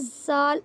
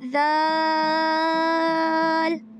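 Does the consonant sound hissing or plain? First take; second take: hissing; plain. First: The consonant has a whistling hiss. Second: The consonant has no whistling hiss. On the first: The speaker calls it wrong. "ये देखें सीटी हो रही है ना" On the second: The speaker calls it right. "सीटी की आवाज़ नहीं आनी चाहिए"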